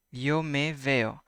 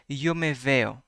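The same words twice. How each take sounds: First: Slow. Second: Said in the usual way. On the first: Shown as a demonstration. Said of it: "teacher repeats sentence slowly". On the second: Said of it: "teacher models Spanish sentence".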